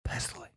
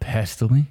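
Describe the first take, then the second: First: It is said plainly, without much energy. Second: It is said with lively energy and gusto.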